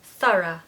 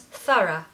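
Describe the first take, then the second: No difference in how they are said.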